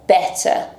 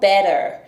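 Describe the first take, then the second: First: The middle consonant is a clear t. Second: The middle consonant sounds like a d. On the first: "Em inglês britânico" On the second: "Em inglês americano"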